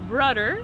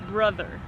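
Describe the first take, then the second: First: The middle consonant is a d sound. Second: The middle consonant is a th sound. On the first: The speaker calls it wrong. "it's not brudder" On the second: The speaker calls it right. "it's brother with a th sound"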